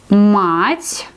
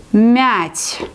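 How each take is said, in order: First: "мать" with a hard м and open a, rising; hard consonant. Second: "мять" with a soft palatal мь and a front vowel; soft consonant. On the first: Teacher contrasting words for students, hard мать. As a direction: say "мать" with a firm, hard м and a broad a. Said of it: "pronounce it like hard, s-, co-, hard consonant, мать". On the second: Teacher contrasting words for students, soft мять. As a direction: say "мять" with the м softened, lips spread. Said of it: "pronounce it like soft consonant, мять". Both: Shown as a demonstration.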